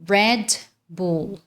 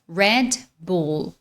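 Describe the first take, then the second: First: It is said with American English sounds. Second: The same.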